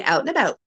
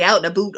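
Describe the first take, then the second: First: Said in the usual way. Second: "a boot" said with a long oo. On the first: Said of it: "No, I say". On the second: Acted. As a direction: say "a boot" with an oo in place of ow. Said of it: "You're looking for the out and a boot".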